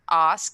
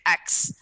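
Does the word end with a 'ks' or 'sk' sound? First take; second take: sk; ks. First: The word ends with an s then k sound. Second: The word ends with a k then s sound. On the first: The speaker calls it right. "They don't say ask like you say ask" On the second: The speaker calls it wrong. "They say ax"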